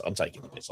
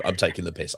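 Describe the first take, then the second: First: Breathy whisper under the breath; whispered aside. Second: Said in the usual way. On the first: Real, not acted. Repeats line, second time whispered.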